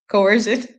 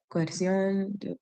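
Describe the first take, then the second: First: Said in the usual way. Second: Coerción said the Spanish way, koh-er-SYOHN; soft, Spanish-sounding Coerción; Spanish pronunciation. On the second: Real, not acted. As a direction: give Coerción its Spanish vowels and stress on the end. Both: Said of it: "why I said that with the Spanish pronunciation".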